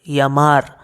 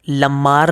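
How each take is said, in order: First: The word begins with a Y sound. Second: The word begins with a clear L sound. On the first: The speaker calls it right. "दो एल मतलब य" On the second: The speaker calls it wrong. "लमार नहीं"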